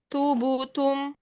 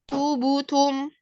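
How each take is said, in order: The two takes are said the same way.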